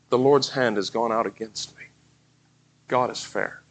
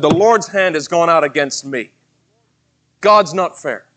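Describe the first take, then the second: First: It sounds humble and repentant. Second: It sounds bitter and resentful.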